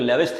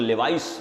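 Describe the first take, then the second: First: The second syllable sounds like 'vis'. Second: The second syllable sounds like 'vice'. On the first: "लेविस theory है" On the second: "जिसको लेवाइस भी बोलते हैं"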